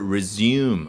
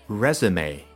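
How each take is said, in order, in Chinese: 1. 发音和英语动词一样。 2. 发音接近法语的那个词。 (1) "这个地方不是resume 啊，那是英文里面的一个动词" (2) "发音还是要接近法语发音的那种感觉，叫resume"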